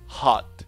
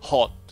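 First: The vowel is an open, unrounded ah sound. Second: The vowel is a short, rounded o sound. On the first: "アメリカ英語では" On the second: "イギリス英語での発音"

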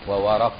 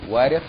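First: The vowel after r is a. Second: The vowel after r is i. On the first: "او فتح الواو" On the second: "مع فتح الواو وكسر الراء"

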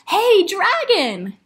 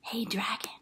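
First: It is shouted very loudly. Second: It is whispered very softly.

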